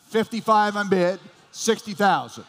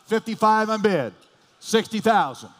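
The two takes are said the same way.

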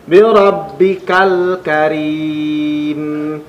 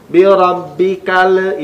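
First: "Bi rabbikal karim" slow, sung, lam not bounced; correct chanted reading. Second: "Bi rabbikal" with the l wrongly bounced; wrong reading. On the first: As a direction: chant it slowly, keep the lam smooth. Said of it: "maka tidak dipantulkan". (chanted, "Bi rabbikal karim" dilagukan, lam tidak dipantulkan) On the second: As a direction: bounce the lam as a mistake. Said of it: "itu adalah pembacaan yang salah". ("Bi rabbikal" dengan lam dipantulkan, salah) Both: Shown as a demonstration.

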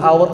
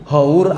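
First: "hour" with the h silent; English reading of "hour", starting on the vowel; English pronunciation. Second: "Hour" read as written, h pronounced; as spelled. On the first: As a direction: say "hour" like "awer". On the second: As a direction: sound out the h in "Hour". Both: Shown as a demonstration. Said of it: "tulisannya hour bacanya hour".

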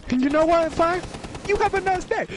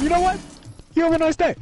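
First: High, raised call to another room; yelling across the room. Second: High, loud called-out repeat; repeated yell across room. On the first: Real, not acted. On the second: Shown as a demonstration. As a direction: shout it again across the room. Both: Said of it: "Just yelling across the room".

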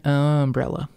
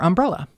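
First: "umbrella" as UM-brella; dialect pronunciation. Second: Said in the usual way. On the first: Shown as a demonstration. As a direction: lean long on the first syllable of "umbrella". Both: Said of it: "three words that tripped me up".

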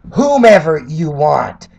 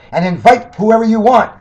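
First: "whomever" slowed and stressed as the correction; corrected word stressed. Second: Said in the usual way. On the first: Shown as a demonstration. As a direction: lean on "whomever" to fix the grammar. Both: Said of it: "Get your English right".

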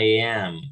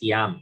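First: "I am" louder, said as AI-am; correct English pronunciation. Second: "I am" misread as ee-AM; wrong Spanish reading. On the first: Teacher echoes the tool for students, "I am" pronounced ai-am, louder. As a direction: say "I am" with the English eye sound. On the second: Teacher shows students what to avoid, "I am" mispronounced as ee-am. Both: Shown as a demonstration. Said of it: "No es I am".

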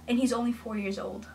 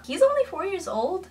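First: Said in the usual way. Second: "only" punched, higher and louder; stress on only. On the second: Shown as a demonstration. A reviewer stressing "only" about the boy. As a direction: lean hard on "only" in disbelief.

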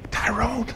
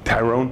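First: Tyrone said higher, as a light call; higher call of the name. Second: Said in the usual way. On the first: Shown as a demonstration. Calling across the office to Tyrone, raised pitch. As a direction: lift Tyrone up high like calling him.

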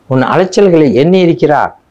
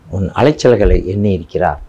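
First: Higher and louder, leaning on எண்ணி; emphatic repeat. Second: Said in the usual way. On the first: Shown as a demonstration. Preacher assuring the congregation, ringing out louder. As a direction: proclaim it again with force, stressing எண்ணி.

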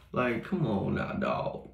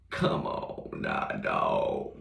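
First: Said in the usual way. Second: Deep slow mock voice; much lower, slow. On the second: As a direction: drop way down low and drag it out slowly. Repeats line in dropped voice.

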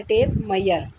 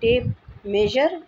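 First: मेयर said slowly as 'ma-yar', y for j; alternative pronunciation. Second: मेजर said slowly as 'may-jar', with a 'j'; first pronunciation. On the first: Teacher contrasting two ways to say tape measure, y sound. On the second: Teacher contrasting two ways to say tape measure, j sound. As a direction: slowly say tape मेजर with a clear j. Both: Shown as a demonstration. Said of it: "या tape मेयर भी आप कह सकते हैं".

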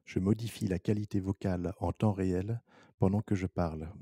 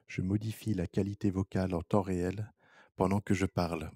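The two takes are said the same way.

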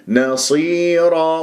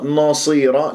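First: نصيرة drawn out slowly, light نون and full ص; slow tajweed model; slow correct recitation. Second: نصيرة with the نون made heavy, shown as a mistake; wrong recitation. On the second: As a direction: say نصيرة with a thick, emphatic نون. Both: Shown as a demonstration. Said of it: "لا، نصي".

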